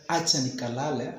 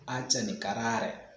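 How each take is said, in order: First: The last word is said with an L sound. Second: The last word is said with an R sound. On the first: The speaker calls it right. "instead of saying acha nikalale" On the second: The speaker calls it wrong. "I said acha nikarare. ... instead of L, I put R"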